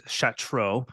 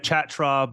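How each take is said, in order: First: Shatro said SHAT-roh; Shatro, slowly, with an "oh" ending. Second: Chatra said with a "ch" as in chat; Chatra, the mistaken reading of the surname; Chatra as spelled. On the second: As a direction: begin Chatra with a hard "ch", not "sh". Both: Shown as a demonstration. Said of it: "how it was actually pronounced".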